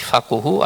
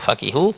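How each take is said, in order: First: The vowel after the q is u. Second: The vowel after the q is i. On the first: "dhammul qaf menurut yang masyhur" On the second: "bisa kasrul qaf"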